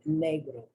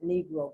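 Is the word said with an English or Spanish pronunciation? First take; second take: Spanish; English. First: The word has a Spanish pronunciation. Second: The word has an English pronunciation. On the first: "according to the rules of pronunciation" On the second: "in English we pronounce it Negro"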